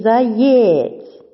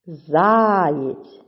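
First: "заєць" with a long, loud ЄЦЬ; deliberately misplace the stress in "заєць": за-ЄЄЦЬ; stress on last syllable. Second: "Заєць" with a long, loud ЗА; stress on first syllable. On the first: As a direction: stretch the second syllable of "заєць" questioningly. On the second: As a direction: stretch and hit the first syllable of "Заєць": ЗАА-єць. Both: Shown as a demonstration. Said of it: "Визначаємо наголос".

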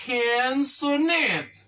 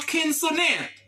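First: Konsonant drawn out slowly, syllable by syllable; konsonant, slow teacher model; slow model word. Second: Konsonant in a light English accent; konsonant, English pronunciation; English word said normally. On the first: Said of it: "Yo rele yo". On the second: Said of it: "T yo, yo rele yo kòman an angle". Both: Shown as a demonstration.

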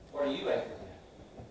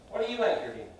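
First: Whispered question. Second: Said in the usual way. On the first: Acted. Question repeated to congregation.

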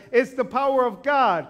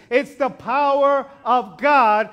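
First: Said in the usual way. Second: "It's the power of God" slow and loud, every word weighed; a slow, loud, ringing "It's the power of God"; emphatic proclamation. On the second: Acted. Preaching climax.

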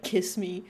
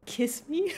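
First: "Kiss me" low and firm, as a statement; retold insistent demand. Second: "Kiss me" pitched up, rising at the end; retold tentative question. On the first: Streamer retelling the answer to her hesitation, insisting. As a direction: repeat "Kiss me" pitched down, no question. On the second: Streamer retelling the repayment asked of the sister, questioning.

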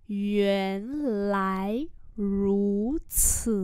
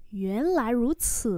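First: Four long, measured syllables; slow model reading. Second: Said in the usual way. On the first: Shown as a demonstration. Teacher modelling "so that's how it is" for learners, drawn out. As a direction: sound out each syllable very slowly.

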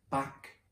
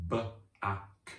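First: Said in the usual way. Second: B-ack split into its sounds, short a; sounding out B-ack for children; sounded out. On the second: Shown as a demonstration. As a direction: segment B-ack slowly, sound by sound. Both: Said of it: "What about the word back".

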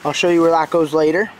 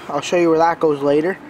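Both takes have the same delivery.

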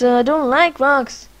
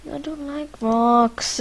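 First: Mock whine about rocks; louder whiny complaint. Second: Said in the usual way. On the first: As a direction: repeat it louder and higher, whining.

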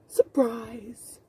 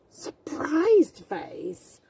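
First: Hushed whispered surprise. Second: Slow, drawn-out surprised face; storybook surprise, slowed. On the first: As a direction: breathe the word like a secret. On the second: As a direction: stretch it out in mock wonder. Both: Shown as a demonstration.

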